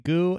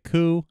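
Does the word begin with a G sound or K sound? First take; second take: G sound; K sound. First: The word begins with a voiced g sound. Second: The word begins with a voiceless k sound. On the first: "I heard someone say goo" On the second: "I've heard someone say coo"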